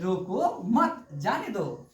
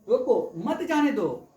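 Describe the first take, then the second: First: The pause comes right after 'mat'. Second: The pause comes right after 'roko'.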